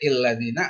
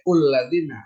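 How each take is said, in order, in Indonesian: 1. Kata ini diawali vokal i. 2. Kata ini diawali vokal u. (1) "nggak boleh illadzina" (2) "nggak boleh ulladzina"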